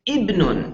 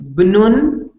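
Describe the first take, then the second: First: A short i vowel is added before the word. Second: The word starts directly with the consonant cluster. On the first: The speaker calls it right. "So you just add an e" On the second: The speaker calls it wrong. "Instead of saying bnun"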